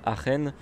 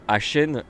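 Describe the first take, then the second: First: "Aachen" with a throaty ch; German-style pronunciation. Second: "Aachen" with a French sh sound; French pronunciation. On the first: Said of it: "il y en a qui disent que ça s'appelle". (« Aachen » à l'allemande, avec un ch raclé) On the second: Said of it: "j'ai l'accent français". (« Aachen » prononcé à la française, avec un ch doux) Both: Shown as a demonstration.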